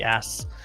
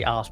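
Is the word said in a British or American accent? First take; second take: American; British. First: It is said in an American accent. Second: It is said in a British accent.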